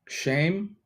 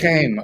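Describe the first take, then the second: First: It begins with a plain sh sound. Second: It begins with a throaty, rasping sound. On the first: The speaker calls it wrong. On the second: The speaker calls it right.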